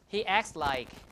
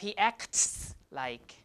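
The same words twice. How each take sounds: First: The t sound in acts is dropped. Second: The t sound in acts is pronounced. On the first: "So we just say acts" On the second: "instead of"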